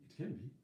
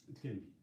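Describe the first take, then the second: No difference in how they are said.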